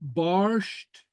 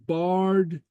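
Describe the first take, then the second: First: The word ends in an sht sound. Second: The word ends in a plain d sound. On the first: "who will pronounce these as barsht" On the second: "others who will pronounce it as bard"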